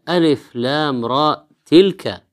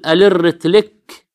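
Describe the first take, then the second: First: Each letter is said separately by its name. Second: The letters run together like one word. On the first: The speaker calls it right. "وهي" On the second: The speaker calls it wrong. "وهذا لا يعرف أن الأحرف في أول السورة تقرأ حرفا حرفا"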